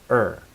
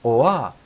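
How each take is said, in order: First: The word is reduced to a weak 'er' sound. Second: The word has a full rounded 'oa' vowel. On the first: The speaker calls it right. "It's just er" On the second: The speaker calls it wrong. "a lot of Japanese people usually use an oa pronunciation"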